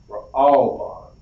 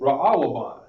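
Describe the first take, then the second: First: The word is said with three syllables. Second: The word is said with four syllables. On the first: The speaker calls it right. "This is how we're actually going to pronounce it" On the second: The speaker calls it wrong. "That is wrong"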